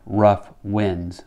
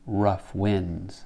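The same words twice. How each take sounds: First: Both words carry equal strong stress. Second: Only winds is stressed; rough is weaker.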